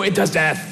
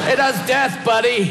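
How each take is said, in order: First: Said in the usual way. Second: Emphatic shout. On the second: Pretend. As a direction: yell "It does death" with does stressed high. Mock dialogue answer, emphatic.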